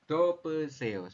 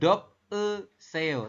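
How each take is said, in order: First: The p sound opens the second syllable. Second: The p sound closes the first syllable. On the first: The speaker calls it right. "seperti itu untuk membacanya" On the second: The speaker calls it wrong. "Bukan dop e seo"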